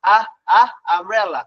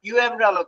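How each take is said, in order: First: Short "আ" twice, then "আমব্রেলা"; phonics U sound. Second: Letter name "ইউ" put before "আমব্রেলা"; wrong reading. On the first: Teacher showing the right reading, short "আ, আ" before "আমব্রেলা". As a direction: isolate the "আ" that starts "আমব্রেলা". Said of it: "পড়েন কি?". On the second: Teacher showing what nobody reads, letter-name "ইউ আমব্রেলা". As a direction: say "ইউ" as a long yoo, then "আমব্রেলা". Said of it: "ইউ আমব্রেলা তো পড়েন না". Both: Shown as a demonstration.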